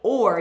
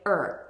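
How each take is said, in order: First: The word is said with a full 'or' vowel. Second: The word is reduced to a weak 'er' sound. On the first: The speaker calls it wrong. "you don't say or" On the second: The speaker calls it right. "you say er"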